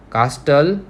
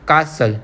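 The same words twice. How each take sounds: First: कास्टल with the T sounded; castle said wrongly with a T; wrong pronunciation. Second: कासल with a silent T; castle said right, T dropped; correct pronunciation. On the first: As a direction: say कास्टल pronouncing the T clearly. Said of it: "नहीं बोलते". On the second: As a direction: say कासल, no T sound. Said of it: "क्या बोलते हैं हम उसको". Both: Shown as a demonstration.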